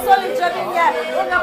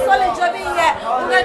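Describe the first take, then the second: No difference in how they are said.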